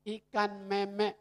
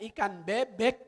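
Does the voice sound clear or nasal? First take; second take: nasal; clear. First: The voice is blocked and nasal. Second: The voice is clear, not nasal. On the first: "Orang dia lagi bindeng" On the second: "Maksudnya ikan bebek begitu"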